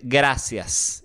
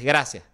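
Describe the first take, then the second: First: The final s is clearly pronounced. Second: The final s is nearly dropped, Venezuelan style.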